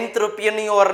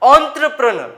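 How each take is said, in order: First: It starts with 'en' and ends with 'nyor'. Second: It starts with 'on' and ends with 'ner'. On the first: The speaker calls it wrong. "મન પડે એવા શબ્દો વાંચતા હશો" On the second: The speaker calls it right. "સાચો ઉચ્ચાર હું તમને શીખડાવું છું"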